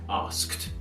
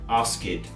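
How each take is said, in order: First: The ending is a short kt sound. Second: The ending is an extra id syllable. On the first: The speaker calls it right. "the correct pronunciation" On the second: The speaker calls it wrong. "you'll often hear some students say"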